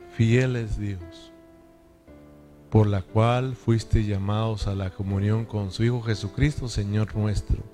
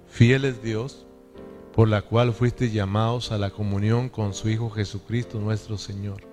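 First: It is read slowly, with pauses. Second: It is read at a normal pace.

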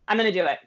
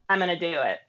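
First: It sounds firm and confident. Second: It sounds unsure and lacking confidence.

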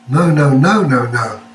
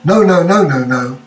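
First: It sounds questioning, like asking something. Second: It sounds irritated, like an annoyed protest.

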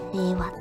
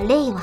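First: The pitch stays flat without a fall. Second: The pitch is high first, then falls. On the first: This is how it may come to be said, like Showa. "昭和みたいにこう平板になっていくんですかね" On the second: This is how it was said at the announcement. "最初にね、発表された時は令和っておっしゃってましたけど"

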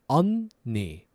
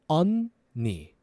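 Both takes have the same delivery.

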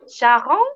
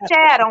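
First: The name is said the French way. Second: The name is said in her own Brazilian way.

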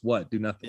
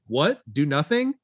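First: It ends with a falling, flat tune. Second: It ends with a rising, questioning tune.

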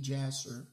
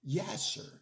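First: The name begins with a J sound. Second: The name begins with a Y sound. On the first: "Some people would pronounce it with a J" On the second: "in the Hebrew"

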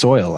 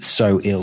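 First: The name is said as one syllable, like soil. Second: The name is said as two syllables, so ill. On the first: "Is it pronounced Soil?" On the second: "I've always in my head pronounced it So Ill"

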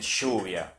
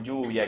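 First: The ll sounds like English sh. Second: The ll sounds like English y.

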